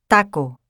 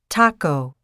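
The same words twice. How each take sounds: First: The first consonant has no puff of air. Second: The first consonant has a puff of air. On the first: "the Spanish T is pronounced with the tip of the tongue touching the back of the upper teeth" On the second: "the English T is pronounced with the tongue further back on the alveolar ridge"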